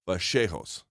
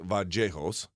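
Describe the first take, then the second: First: The double L sounds like an English sh. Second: The double L sounds like an English y. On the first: This is how it is said in Argentina. "they say the double L like a sh" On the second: This is how it is said in Colombia. "A lot of Spanish-speaking countries are going to say the double L like the English Y"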